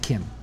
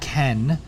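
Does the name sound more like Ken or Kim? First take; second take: Kim; Ken. First: The name sounds like Kim. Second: The name sounds like Ken. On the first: "I say it Kim" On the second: "I don't say it Ken"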